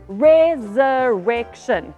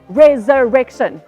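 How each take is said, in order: First: The word is said at a slow pace. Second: The word is said at a fast pace.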